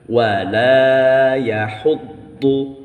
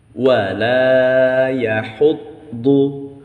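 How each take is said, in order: No difference in how they are said.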